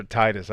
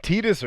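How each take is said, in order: First: "Titus" with a long i first vowel; "Titus" rhyming its first syllable with tie; TIE-dus pronunciation. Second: "Titus" with a long ee first vowel; "Titus" rhyming its first syllable with tee; TEE-dus pronunciation. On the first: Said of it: "I've always said Titus". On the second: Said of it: "I've heard both". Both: Shown as a demonstration.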